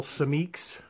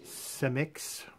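First: "[name]" said as suh-MEEKS, long ee, second syllable stressed; alternate pronunciation. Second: "[name]" said softly as SEM-iks, short vowels; alternate pronunciation. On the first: Unsure host offers the artist's surname, pronouncing "[name]" as suh-MEEKS. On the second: Host unsure of the artist's surname, softly pronouncing "[name]" as SEM-iks. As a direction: say "[name]" like SEM-iks, first syllable stressed, dropped quieter. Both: Shown as a demonstration. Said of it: "not sure how to pronounce it".

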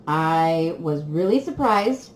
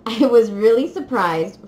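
First: Said in the usual way. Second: Laughing, louder. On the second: Real, not acted.

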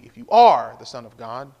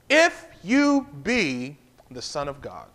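First: "are" pushed up and louder; stress on ARE. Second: IF leaned on, slow and low; stress on IF. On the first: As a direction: punch "are" with a rising lift. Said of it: "where you place the emphasis". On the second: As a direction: lean hard on "If" and draw it out. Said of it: "The power to me is where you place the emphasis". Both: Shown as a demonstration.

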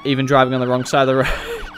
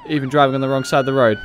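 First: Said in the usual way. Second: Quicker, laughing through it; laughing repeat. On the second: Shown as a demonstration. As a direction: repeat it amused.

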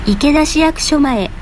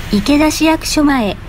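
Both takes have the same delivery.

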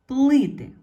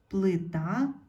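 First: Плити with a high, very loud first И, falling; stress on first syllable. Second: Плита rising on a stressed final А; stress on last syllable. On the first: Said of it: "стало наголошеною". (сильний наголос на перше И у слові плити) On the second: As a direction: lean on the А in плита. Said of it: "треба змінити слово так". (наголос на А в кінці слова плита) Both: Shown as a demonstration.

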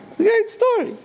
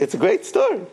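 First: It's a great story pitched much higher with a falling finish; enthusiastic repeat. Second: Said in the usual way. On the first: Shown as a demonstration. Rabbi savours his own story before listeners, high enthusiastic echo. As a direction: relish the repeat.

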